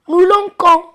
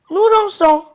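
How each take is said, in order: First: The consonant before -ons sounds like k. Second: The consonant before -ons sounds like s. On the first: The speaker calls it wrong. "si on n'ajoute rien, on va lire nous lanquons. Donc ça n'a pas de sens" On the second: The speaker calls it right. "Pour prononcer, nous lançons"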